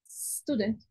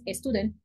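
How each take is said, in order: First: The word starts directly with a hissing s. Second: The word starts with a short vowel before s. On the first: The speaker calls it right. "La palabra es student; como serpientes" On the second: The speaker calls it wrong. "No es student"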